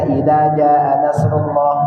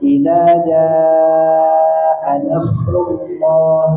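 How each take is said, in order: First: The vowel in jaa is cut short. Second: The vowel in jaa is drawn out long. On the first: The speaker calls it wrong. "itu salah itu. Ya, karena harkatnya kur, kurang, kurang panjang" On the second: The speaker calls it right. "Paling aman dibaca panjang"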